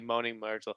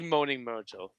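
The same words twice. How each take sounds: First: It is said plainly in a normal accent. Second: It is drawn out in an odd accent. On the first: The speaker calls it wrong. "you cannot say it like Moaning Myrtle" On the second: The speaker calls it right. "You have to say it that way"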